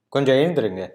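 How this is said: It is said in a harsher tone.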